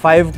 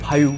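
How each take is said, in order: First: It is said in a plain English accent. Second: It is said in a Kashmiri English accent.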